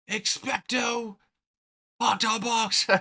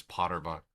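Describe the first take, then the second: First: High, drawn-out wizard incantation; spell-casting voice. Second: Said in the usual way. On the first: Acted. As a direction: cast a mock spell, pitched way up. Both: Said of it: "where he, like, casts a spell".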